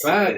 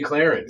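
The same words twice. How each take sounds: First: The name is said without an r sound. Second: The name is said with an r sound. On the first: This is how the actors in the film say it. "Like C L A A N C E" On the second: This is how the actors in the film do not say it. "They don't say Clarence"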